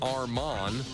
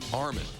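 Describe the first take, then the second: First: The second syllable sounds like 'mand'. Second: The second syllable sounds like 'min'. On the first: The speaker calls it wrong. "even though it looks like Armand" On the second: The speaker calls it right. "it's really Armin"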